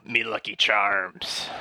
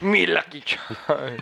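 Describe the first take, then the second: First: Slow, drawn-out Irish lilt on "Me Lucky Charms"; slow mock accent. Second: Slow, drawn-out Irish lilt on "Me Lucky Charms"; imitating the accent. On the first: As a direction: savour each word in a stage Irish accent. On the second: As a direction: echo the stage Irish accent back, teasing. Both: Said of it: "That accent".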